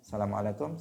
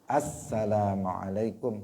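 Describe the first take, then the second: First: The article 'al' is left out before 'salamu'. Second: The article 'al' is sounded before 'salamu'. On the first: The speaker calls it wrong. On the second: The speaker calls it right. "mestinya ada assalamualaikum"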